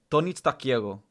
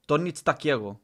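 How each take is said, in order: Both takes have the same delivery.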